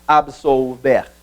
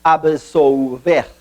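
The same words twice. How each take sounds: First: Absolver said slowly, split into syllables. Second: Absolver drawn out slowly, syllable by syllable; split by syllables. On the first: Teacher repeating absolver split into syllables, slowly. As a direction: break absolver apart slowly for the class. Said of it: "Neste caso A". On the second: Teacher splitting Absolver into syllables for the class, slow and clear. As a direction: sound out Absolver in careful slow parts. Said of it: "separação silábica ficaria". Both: Shown as a demonstration.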